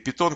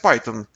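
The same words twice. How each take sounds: First: It is pronounced the Russian way. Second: It is pronounced the English way.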